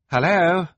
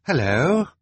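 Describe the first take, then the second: First: Higher, louder hello into the phone; calling louder. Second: Calling hello. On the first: Violet calling into a silent phone, louder now. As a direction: call out again, more urgently. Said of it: "Violet said again". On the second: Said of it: "Violet said finally". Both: A narrator's reading.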